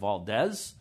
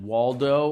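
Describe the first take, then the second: First: It starts with a V sound, ending in s. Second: It starts with a W sound, ending in o.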